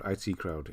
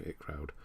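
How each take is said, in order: First: "I T Crowd" with each initial named; spelled-out letters. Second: "It Crowd" with the initials run into one word; read as a word. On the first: Streamer reading out a show title, "I T" as letters. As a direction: say "I T" as two separate letters. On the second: Streamer trying the show title, "It" as one word. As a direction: say "It" like the pronoun. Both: Shown as a demonstration.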